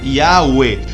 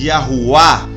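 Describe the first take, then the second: First: The name ends with an 'e' vowel sound. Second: The name ends with an 'a' vowel sound. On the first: "termina con ese, esa terminología en E" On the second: "leen la Vav como U y la Hey final la leen como A en vez como E"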